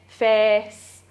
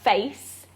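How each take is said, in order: First: The vowel stays steady throughout. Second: The vowel glides between two targets. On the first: This is the West Yorkshire pronunciation. "say it as a, a monophthong with a steady state throughout" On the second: This is the Southern British standard pronunciation. "which is how you'd say it in S S B E"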